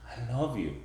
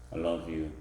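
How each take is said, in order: First: The pitch varies with lively expression. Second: The pitch stays flat on one level. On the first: The love sounds believable. The speaker calls it right. "That's a tone" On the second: The love does not sound believable. The speaker calls it wrong. "That's a monotone"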